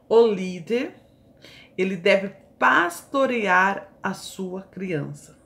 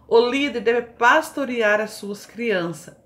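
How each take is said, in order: First: It is read slowly, with pauses. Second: It is read at a normal pace.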